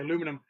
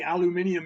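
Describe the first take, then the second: First: It is said the American way, aluminum. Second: It is said the British way, aluminium.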